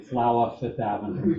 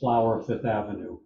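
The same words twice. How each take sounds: First: It is said in a New York accent. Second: It is said in a neutral accent. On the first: The speaker calls it right. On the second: The speaker calls it wrong.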